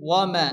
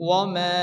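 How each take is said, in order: No difference in how they are said.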